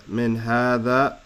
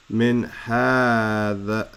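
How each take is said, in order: First: Said in the usual way. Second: "min hadha" very slow, long vowel in ha; drawn-out reading. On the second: Shown as a demonstration. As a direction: stretch out "min hadha" word by word. Teacher reads the phrase out slowly.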